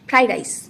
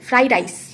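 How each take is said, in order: Both takes have the same delivery.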